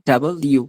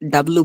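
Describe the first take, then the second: First: Both parts are said clearly in full. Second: The parts are squeezed into a shortened form. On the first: The speaker calls it right. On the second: The speaker calls it wrong. "এটা ডাব্লু বলবে না"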